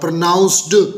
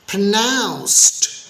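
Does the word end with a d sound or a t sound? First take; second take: d sound; t sound. First: The word ends with a d sound. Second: The word ends with a t sound. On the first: The speaker calls it wrong. "ये भी गलत हो गया" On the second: The speaker calls it right. "देखा आखिरी sound क्या हुई, ट टाइप की"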